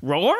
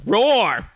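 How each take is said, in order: First: Short roar rising like a question. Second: Loud, high roar falling off; bear roar. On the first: Bear looking around, short questioning roar. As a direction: roar it as a puzzled query. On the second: Bear challenging his enemy with a loud, falling roar. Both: Acted.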